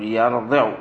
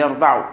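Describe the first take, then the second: First: يرضع said yarḍiʿ with a kasra on the ḍād; يرضع with an i before the ʿayn; correct form. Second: يرضع said yarḍaʿ with a fatha on the ḍād; يرضع with an open a before the ʿayn; wrong form. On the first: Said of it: "قل يرضع". (يرضع بكسر الضاد) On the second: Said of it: "لا تقول فيه يرضع". (يرضع بفتح الضاد) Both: Shown as a demonstration.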